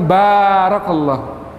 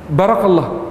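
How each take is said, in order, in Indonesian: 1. Vokal pertama itu panjang. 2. Vokal pertama itu pendek. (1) "dengan ba yang panjang" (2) "banyak pendek"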